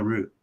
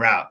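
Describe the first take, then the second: First: The vowel sounds like the one in 'boot'. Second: The vowel sounds like the one in 'out'. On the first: "no, root" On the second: "he's like, you mean route?"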